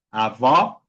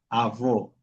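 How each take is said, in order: First: "avó" with an open, rising final o; outward open vowel. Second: "avó" with a closed, falling final o; inward closed vowel. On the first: Teacher explaining the acute accent, open final vowel on "avó". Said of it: "Eso es abuela". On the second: Teacher showing the other accent, closed final vowel on "avó". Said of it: "eso es abuelo". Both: Shown as a demonstration.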